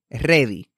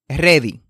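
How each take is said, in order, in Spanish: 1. La r se hace con la lengua tocando el paladar. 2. La r se hace con la lengua tocando el paladar.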